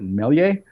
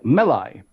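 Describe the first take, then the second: First: The last syllable does not sound like lie. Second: The last syllable sounds like the word lie. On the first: The speaker calls it wrong. "some people pronounce it Melie. I'm like, what?" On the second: The speaker calls it right. "I thought lie, like you know, like lie"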